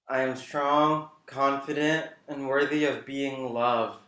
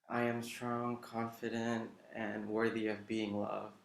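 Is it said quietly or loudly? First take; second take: loudly; quietly. First: It is said more loudly. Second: It is said quietly.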